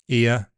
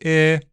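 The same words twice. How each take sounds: First: The vowel glides from one sound to another. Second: The vowel stays a single steady sound. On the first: "these diphthongs are dead" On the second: "They are now monophthongs"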